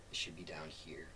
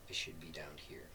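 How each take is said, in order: Both takes have the same delivery.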